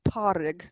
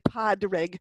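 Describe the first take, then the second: First: No D sound is heard in the middle. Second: A D sound is heard in the middle. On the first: The speaker calls it right. "you don't pronounce the D in the middle of Padrig" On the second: The speaker calls it wrong. "You don't say Padrig"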